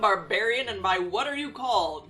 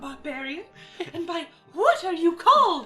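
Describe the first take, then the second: First: It is read in an ordinary voice. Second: It is read in a put-on character voice.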